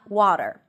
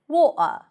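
First: It is said in an American accent. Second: It is said in a non-American accent. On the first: This is the version the learner has been practicing. "And not water" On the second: This is how a speaker of another dialect says it. "the host always says"

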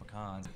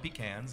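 First: It is said the Louisiana way. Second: It is said the South Carolina way. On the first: The speaker calls it right. "it just sounds right by saying pecans" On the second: The speaker calls it wrong. "in South Carolina, ... They call it pecans"

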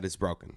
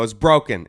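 First: It is said in a plain, neutral tone. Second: It is said in a bitchy, snippy tone.

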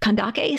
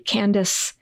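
First: The last consonant is a hard k sound. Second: The last consonant is a soft s sound. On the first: This is the ancient pronunciation. "it was pronounced with a hard K sound" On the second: This is the modern name form. "it looks like it should be pronounced with a soft C"

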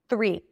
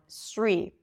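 First: It begins with a soft TH sound. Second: It begins with a hissing S sound. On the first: The speaker calls it right. "that's a TH sound" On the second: The speaker calls it wrong. "if the tongue is gonna be in, but you still hear the air coming out, it's probably an S sound"

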